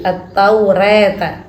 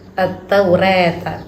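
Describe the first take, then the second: No difference in how they are said.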